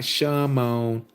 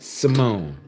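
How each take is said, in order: First: The name begins with an sh sound. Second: The name begins with a plain s sound. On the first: The speaker calls it wrong. "not Shimon" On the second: The speaker calls it right. "Let me say it right"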